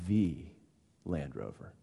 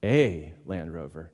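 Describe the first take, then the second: First: "the" set apart as "thee", then a pause; single out "the", then drop low and soft on the name; weighty "thee", pausing before a hushed name; stress on THE. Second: "a" said as a long "ay", set apart; slow, drawn-out "a" before the name; stress on A. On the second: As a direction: lean on "a", pronounced like the letter A. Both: Retold or imitated. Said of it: "Land Rover has this a-, this, um, advertisement".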